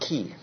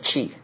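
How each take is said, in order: First: It begins with a k sound. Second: It begins with a ch sound. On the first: The speaker calls it wrong. "Not key" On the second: The speaker calls it right. "but chi"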